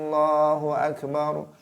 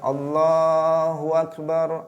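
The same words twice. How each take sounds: First: The first a of akbar is drawn out long. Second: A w sound is added before akbar. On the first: "dibaca a panjang" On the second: "akbar menjadi wakbar"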